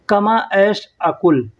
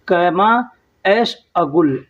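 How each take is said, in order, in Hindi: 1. आख़िरी शब्द k ध्वनि के साथ बोला जाता है। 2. आख़िरी शब्द g ध्वनि के साथ बोला जाता है। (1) "अरबी में ऐसे लिखा जाता है कुल" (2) "लेकिन लोग बोलते हैं गुल"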